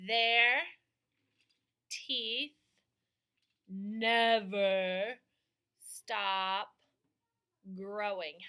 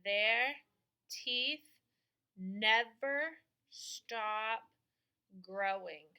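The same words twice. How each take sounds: First: Their teeth never stop growing each word separate and loud; over enunciating. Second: Their teeth never stop growing with never very slow; over enunciating. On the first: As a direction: space out every word loudly. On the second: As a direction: stretch never stop slowly. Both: Shown as a demonstration. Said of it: "slow word-by-word dictation".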